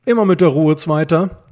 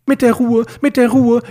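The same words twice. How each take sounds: First: Firm, slightly raised calming words; placating, measured admonition; appeasing. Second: MIT DER RUHE thrown back high and loud; shrieky, exasperated echo of calming words; indignant echo. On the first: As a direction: try to settle an agitated friend. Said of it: "versuchte Justus, ihn zu beschwichtigen". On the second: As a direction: repeat the phrase in outraged mockery. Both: A narrator's reading.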